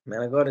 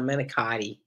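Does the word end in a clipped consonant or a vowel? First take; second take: consonant; vowel. First: The word is clipped, ending on a consonant. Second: The word is said in full, ending on a vowel. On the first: The speaker calls it right. "Manigot is how he's pronounced it" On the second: The speaker calls it wrong. "not Manicotti"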